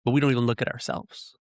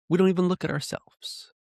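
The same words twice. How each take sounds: First: Said in the usual way. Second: Much higher-pitched, pleading repetition; emphatic repeat. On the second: Real, not acted. Speaker driving home self-examination to listeners, high and emphatic. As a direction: lift the whole line high for emphasis.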